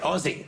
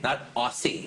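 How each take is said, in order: First: The middle consonant sounds like a z. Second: The middle consonant sounds like an s. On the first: The speaker calls it right. "I say it right" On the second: The speaker calls it wrong.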